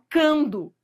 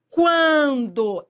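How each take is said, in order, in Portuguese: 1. Nenhum som de w é pronunciado depois do k. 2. O u é pronunciado como w depois do k. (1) "você não fala cando" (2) "Esse u é pronunciado? Quan, quan. É"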